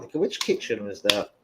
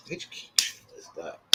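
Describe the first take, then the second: First: Said in the usual way. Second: Whispered to himself, much softer. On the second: Real, not acted. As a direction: breathe the question under your breath. Repeats question, second time whispered.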